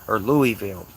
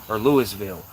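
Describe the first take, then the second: No difference in how they are said.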